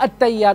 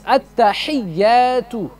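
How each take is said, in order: First: The word is said without the h sound. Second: The word is said with a clear h sound. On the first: The speaker calls it wrong. "Not at-tayyat. There's no such word as at-tayyat" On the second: The speaker calls it right. "It's at-tahiyyatu"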